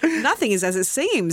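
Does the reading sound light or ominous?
light. It is read in a light, breezy tone. The film could be a romantic comedy. "it could be the description of a romantic comedy"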